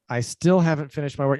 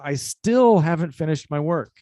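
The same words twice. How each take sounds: First: The word still carries no extra emphasis. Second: The word still carries strong extra emphasis.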